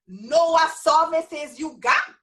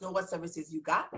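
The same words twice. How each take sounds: First: Slow, louder Virgin Islands accent. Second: Said in the usual way. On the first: Real, not acted. Teacher giving her group the one rule, emphatic Virgin Islands accent. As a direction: drive it home in a drawn-out VI accent. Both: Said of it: "That means know what services you got".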